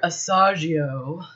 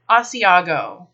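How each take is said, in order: First: No 'ee' sound follows the S. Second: An 'ee' sound follows the S. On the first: The speaker calls it wrong. "a lot of people come in looking for Asagio" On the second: The speaker calls it right. "There is an I before the second A in Asiago"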